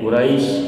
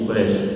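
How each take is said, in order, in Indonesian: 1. Suku kata terakhir memiliki vokal 'ai'. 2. Suku kata terakhir memiliki vokal 'e'. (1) "ai jadi e" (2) "ai jadi e"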